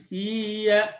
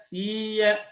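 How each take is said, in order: No difference in how they are said.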